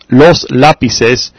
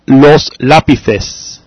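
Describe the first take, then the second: First: The c is said like an s. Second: The c is said like a th. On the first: This is how it is said in Latin America. "In Latin America, you would say" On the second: This is how it is said in Spain. "but in Spain you would say"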